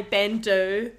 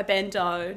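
First: "bandeau" said ban-DOO; "bandeau" rhyming with "can do"; unsure pronunciation. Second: "bandeau" said ban-DOH; "bandeau" rhyming with "and go"; alternative pronunciation. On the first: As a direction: end "bandeau" on an oo sound. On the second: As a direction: end "bandeau" on an oh sound. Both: Shown as a demonstration. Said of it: "not too sure how you fashionistas like to say it".

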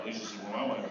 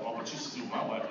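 First: "my" leaned on with a rise, low and quiet; mock boast with "my" rising; stress on my. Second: "you" leaned on, low and quiet; mock one-upping with "you" stressed. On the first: Husband topping the story, stress on "my". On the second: Husband outdoing the others, stress on "you". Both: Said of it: "Who got the worst wife?".

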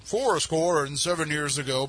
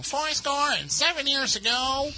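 First: Slow, deep presidential voice; the usual deep gruff Lincoln. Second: Much higher, slow nasal voice; high nasal Lincoln voice. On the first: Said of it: "everybody always has a". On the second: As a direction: squeeze it up high through the nose. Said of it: "a very high-pitched, nasally voice". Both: Retold or imitated.

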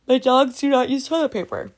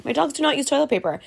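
First: Words stretched through a real yawn. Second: Said in the usual way. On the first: Real, not acted. Vlogger to camera about her dogs, mid-yawn. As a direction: say it mid-yawn, mouth wide. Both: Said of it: "Sorry, I was yawning there".

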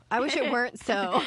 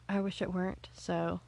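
First: Louder, higher mock lament; hammed-up regret, pushed out for a laugh; playfully emphatic. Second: Said in the usual way. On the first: Repeats the line with playful emphasis.

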